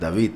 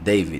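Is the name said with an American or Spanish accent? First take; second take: Spanish; American. First: It is said with a Spanish accent. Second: It is said with an American English accent. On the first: "suena una pronunciación muy española" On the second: "en Estados Unidos... por la pronunciación que le dan a la A, pronuncian David"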